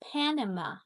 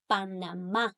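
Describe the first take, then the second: First: It is said with English pronunciation. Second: It is said with Spanish pronunciation.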